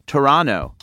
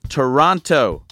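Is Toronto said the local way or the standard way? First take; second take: local; standard. First: It is said the local Toronto way. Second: It is said the ordinary way, all syllables clear.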